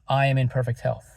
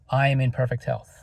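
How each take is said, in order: Both takes have the same delivery.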